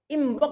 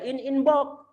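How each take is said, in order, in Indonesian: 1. Huruf n sebelum b diucapkan sebagai m. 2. Huruf n sebelum b tetap diucapkan sebagai n. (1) "Inbox lebih nyaman" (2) "daripada in inbox"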